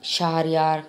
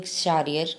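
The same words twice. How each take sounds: First: Shahryar with a sounded h and long final a; Shahryar said slowly as SHAH-ri-YAAR; alternative pronunciation. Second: Shahryar run together as "SHAR-yer"; Shahryar said as SHA-ri-er; first pronunciation. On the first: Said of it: "You can say". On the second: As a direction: say Shahryar with a short last vowel. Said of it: "this word, I'm saying Shahryar". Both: Shown as a demonstration.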